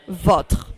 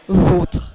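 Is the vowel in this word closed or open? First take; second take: open; closed. First: The o vowel is open. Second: The o vowel is closed. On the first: "Without the accent" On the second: "With the accent"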